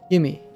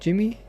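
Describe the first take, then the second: First: The name starts with a hard G sound. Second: The name starts with a soft J sound. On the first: The speaker calls it right. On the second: The speaker calls it wrong.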